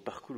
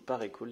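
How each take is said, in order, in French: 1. Le nom se prononce en deux syllabes. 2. Le nom se prononce en trois syllabes. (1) "Je préfère Parcool" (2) "Je trouve la prononciation un peu bizarre"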